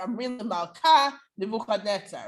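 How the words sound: There is a pause before Nebuchadnezzar. It sounds more impudent toward the king. "By having that pause"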